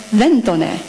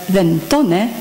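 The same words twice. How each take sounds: First: Then tone run together, tone leaning on then; enclitic then tone. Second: Then tone with tone fully accented; normal then tone. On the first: Lecturer showing the enclitic reading of then tone, demonstrative. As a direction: say then tone as one unit, tone unstressed. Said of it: "in enclitic fashion as". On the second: Lecturer giving the normal reading of then tone, plainly. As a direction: say then tone the standard way, accent kept on tone. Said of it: "normally pronounced and written as". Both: Shown as a demonstration.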